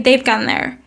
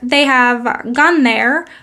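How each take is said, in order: First: 'Have' is contracted onto 'they' as 've'. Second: 'Have' is said in full as a separate word. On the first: "we say" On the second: "instead of saying"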